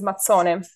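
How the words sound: It is said in the northern form, mazzone. "But in the north is Mazzone"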